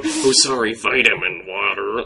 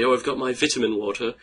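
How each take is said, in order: First: British teacher mocking an American accent; hammed-up American accent, slowing on the last words; exaggerated American accent. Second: Higher-pitched mock English accent; put-on English accent, lifted in pitch; strong English accent. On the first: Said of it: "that's just how they hear us". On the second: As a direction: imitate a British teacher, pitched up. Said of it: "very strong English accent".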